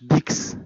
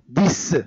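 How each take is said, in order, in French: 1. La consonne finale se prononce KS. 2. La consonne finale se prononce S. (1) "ما تنقولوش dix" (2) "On écrit X et on prononce C"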